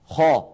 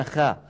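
First: خا full and dark; heavy kha. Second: خا thin with a front vowel; light wrong kha. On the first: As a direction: say خا with a raised back vowel. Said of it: "بل يقولون". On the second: Teacher shows the way to avoid, light خا. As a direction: say خا without any heaviness. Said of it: "ولا يقولون خا". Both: Shown as a demonstration.

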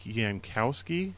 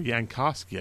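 First: Yankowski with COW in the middle; tentative name pronunciation. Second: Yankowski with KAH in the middle; corrected name pronunciation. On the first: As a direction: say Yankowski as yan-COW-skee, unsure. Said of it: "is how you pronounce his last name". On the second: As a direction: say Yankowski as yan-KAH-skee. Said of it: "I believe is how you pronounce". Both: Shown as a demonstration.

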